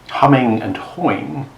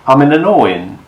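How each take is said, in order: First: The H sounds and final G are pronounced. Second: The H sounds and final G are dropped.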